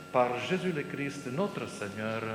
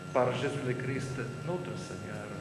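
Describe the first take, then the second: Both takes have the same delivery.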